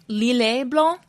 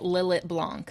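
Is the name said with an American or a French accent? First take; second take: French; American. First: It is said with a French accent. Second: It is said with an American accent. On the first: The speaker calls it right. "But if you're French" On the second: The speaker calls it wrong. "I'm going to butcher it with the American accent"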